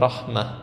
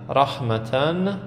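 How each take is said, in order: First: The word ends with a soft 'ah' sound. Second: The word ends with a 'tan' sound. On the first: The reader pauses on the word. "هر وقت خواستیم ساکن کنیم، سکون یا به قولی وقف کنیم، میشه بده رحمه" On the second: The word is read in connected speech. "مثلا رحمتن"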